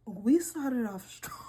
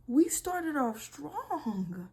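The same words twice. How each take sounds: First: Slow, stunned deadpan; stunned irony. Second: Very slow, higher, drawn-out disbelief; drawn-out irony. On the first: Reacting to a shocking confession, slow stunned irony. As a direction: drag it out in disbelief. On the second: Repeating herself to viewers, very slow stunned irony. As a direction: stretch each word out, stunned. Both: Real, not acted.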